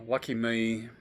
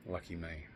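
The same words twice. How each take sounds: First: Sarcastic sigh then say it. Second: Said in the usual way. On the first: Real, not acted.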